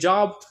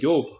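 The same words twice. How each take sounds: First: It starts with a J sound. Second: It starts with a Y sound, Mexican-style.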